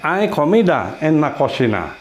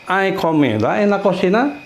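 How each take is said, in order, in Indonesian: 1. Diucapkan dengan intonasi pernyataan. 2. Diucapkan dengan intonasi pertanyaan. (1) "itu kan bukan bertanya, itu ber, apa, memberitahu ya, memberitahu statement, pernyataan" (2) "nah itu kan bertanya"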